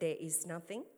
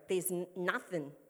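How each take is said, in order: First: The words 'there is' are said in full. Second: The words 'there is' are contracted. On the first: "He actually said" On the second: "But we'd go"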